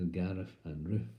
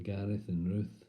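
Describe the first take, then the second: First: "Gareth" as "Garef", "Ruth" as "Roof"; f for th in both "Gareth" and "Ruth"; impaired speech. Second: Said in the usual way. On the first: Acted. Parents naming their children, impaired "Garef and Roof". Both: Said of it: "but to them they're".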